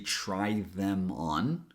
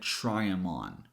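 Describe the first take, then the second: First: The 'th' of 'them' is fully pronounced. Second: The 'th' of 'them' is dropped, linked to 'try'. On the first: "she didn't say try them on" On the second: "she said try them on"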